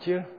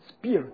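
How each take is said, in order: First: The word begins with a ch sound. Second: The word begins with an sp sound.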